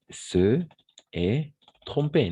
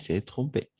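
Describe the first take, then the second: First: The vowels of se and est are both pronounced. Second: The vowel of se is dropped into est.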